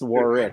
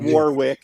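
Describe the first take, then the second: First: The middle w is silent, as Warrick. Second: Every letter is sounded, including the middle w.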